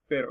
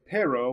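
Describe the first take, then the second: First: The R is a quick D-like tap. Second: The R is a hard English-style R. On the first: The speaker calls it right. "little tip of a D on the tip of your tongue" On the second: The speaker calls it wrong. "instead of saying pero"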